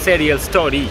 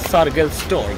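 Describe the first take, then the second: First: The name is pronounced with Swedish sounds. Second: The name is pronounced with English sounds. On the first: "সুইডিশে আমরা প্রনাউন্স করি" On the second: "ইংরাজিতে"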